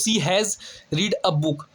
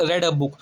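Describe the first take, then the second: First: "read" said like "reed"; "read" rhyming with "need"; present-tense "read". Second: "read" said like "red"; "read" rhyming with "bed"; past-tense "read". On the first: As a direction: say "read" with a long ee. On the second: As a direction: say "read" with a short e. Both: Shown as a demonstration. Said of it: "ये भी past tense का ही लग रहा है".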